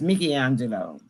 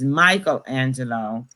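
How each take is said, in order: First: The name is said with an Italian pronunciation. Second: The name is said with an English pronunciation. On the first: This is how the name is really said. "he's Italian, and it's really pronounced Michelangelo" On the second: This is how English speakers say it. "We pronounce it as Michelangelo"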